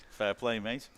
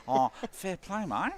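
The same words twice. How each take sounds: First: Antipodean accent slip. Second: Higher, slow, broad Australian "fair play, mate"; hammed-up Australian accent. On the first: Real, not acted. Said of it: "didn't mean to put on some sort of weird Antipodean accent". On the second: Shown as a demonstration. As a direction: ham up the Aussie accent on purpose. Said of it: "that's Australian".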